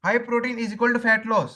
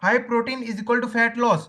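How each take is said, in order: First: Very slow, each word spaced for writing; slow dictation repeated. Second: Very slow, word by word for notes; slow dictation. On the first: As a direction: say it again slowly for the notebook. (धीरे-धीरे दोहराते हुए) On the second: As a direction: spell it out slowly so they can write it down. (धीरे-धीरे लिखवाते हुए) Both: Shown as a demonstration. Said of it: "एक चीज लिख लो".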